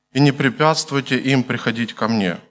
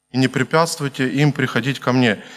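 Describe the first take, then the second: Both takes have the same delivery.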